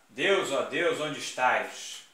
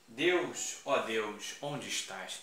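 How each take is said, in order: First: Louder, slowed pleading call to God; dramatic invocation. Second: Said in the usual way. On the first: Shown as a demonstration. Teacher performing the apostrophe to the class as a dramatic plea. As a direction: cry out to the heavens, drawn out. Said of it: "Olha lá". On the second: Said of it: "Apóstrofe".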